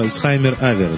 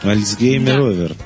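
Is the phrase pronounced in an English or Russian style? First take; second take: English; Russian. First: It is pronounced the English way, 'Altshaymer aver'. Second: It is pronounced the Russian way, 'Altsgeymer over'.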